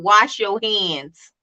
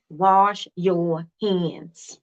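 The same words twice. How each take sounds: First: Said in the usual way. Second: Very slow, laughing through the words. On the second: Shown as a demonstration. Teacher teasing a viewer about soap samples, laughing. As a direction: chuckle as you drag out Wash your hands.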